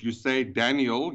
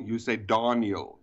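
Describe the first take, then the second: First: Daniel with a D sound like T, slow; German Daniel. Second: Daniel with an open ah, slow and lower; Daniel said as Tahn-yel, drawn out; Germanic Daniel. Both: Shown as a demonstration. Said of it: "in the Germanic language".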